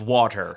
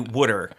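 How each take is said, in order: First: The word is said in a standard accent. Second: The word is said in a Baltimore accent. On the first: "Instead of water" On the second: "people in Baltimore say things dumb. Like they say water"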